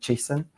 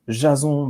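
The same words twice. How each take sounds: First: The name is said with a British pronunciation. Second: The name is said with a French pronunciation.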